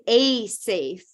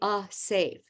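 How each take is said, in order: First: The article is said fully, like 'ay'. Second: The article is reduced to a weak 'uh'. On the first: The speaker calls it wrong. "did you notice how I didn't say a safe" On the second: The speaker calls it right. "we say a safe"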